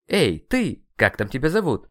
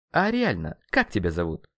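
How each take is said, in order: First: Louder, higher brusque hail; rude, raised-voice summons; calling out. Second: Said in the usual way. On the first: Acted. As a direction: call out to get someone's attention. Hailing the dark entity rudely.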